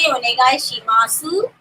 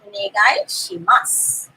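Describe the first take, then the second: First: The final su is fully pronounced. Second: The final su is dropped, ending in s. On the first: The speaker calls it wrong. "we don't say onegai shimasu" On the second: The speaker calls it right. "We just say onegai shimasu. the su is only written"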